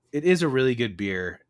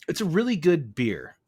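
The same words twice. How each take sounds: First: "is" hit hard as an insistent confirmation; stress on IS. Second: "really" as the emphasized word, high then falling; stress on REALLY. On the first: Host insisting on his praise of the beer, stress on "is". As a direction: punch "is", then fall away. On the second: Host vouching for the beer, stress on "really". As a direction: lean on "really", pitched high and louder. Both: Real, not acted.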